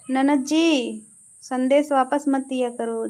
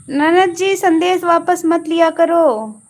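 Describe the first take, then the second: First: Said in the usual way. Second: "ननद जी संदेश वापस मत लिया करो" called out louder and higher; loud playful scolding. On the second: Real, not acted. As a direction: tell her off loudly, half-joking. Scolding a message deleter. (ज़ोर से मज़ाकिया डांट)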